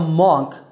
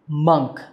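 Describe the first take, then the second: First: The vowel is not an 'uh' sound. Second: The vowel is an 'uh' sound. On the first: The speaker calls it wrong. "Not a monk" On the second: The speaker calls it right. "but a monk with an uh sound"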